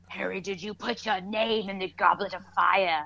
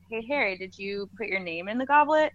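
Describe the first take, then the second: First: It is asked in a forceful, agitated way. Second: It is asked in a calm, casual way.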